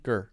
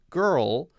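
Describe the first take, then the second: First: The word ends without any L sound. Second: The word ends with a clear L sound. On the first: The speaker calls it wrong. "So I'm hearing Gur like we would use Gur" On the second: The speaker calls it right. "girl stops with the L sound"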